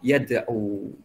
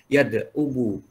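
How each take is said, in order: First: The final waw carries no vowel at all. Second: The final waw carries a full 'u' vowel. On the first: This is the lightened form that is easier to say. The speaker calls it right. "dikasih sukun" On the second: This is the heavy underlying form that is hard to say. The speaker calls it wrong. "harusnya kan gini"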